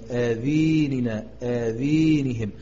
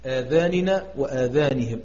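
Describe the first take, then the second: First: The long vowels are tilted toward an e sound. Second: The long vowels are said as plain open a.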